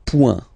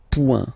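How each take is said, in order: First: "point" said pwen, nasal, no t; French point. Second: "point" again, pwen, no t; French point. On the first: Teacher naming the dot in French. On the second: Teacher repeating the dot name. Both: Shown as a demonstration. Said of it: "we call it".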